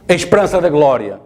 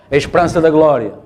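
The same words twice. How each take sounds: The two takes are said the same way.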